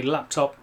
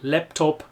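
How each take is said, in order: First: Said in the usual way. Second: "Laptop" with a German "lep" first syllable; German accent. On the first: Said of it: "I'd never say". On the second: Shown as a demonstration. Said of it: "This really exaggerated German accent".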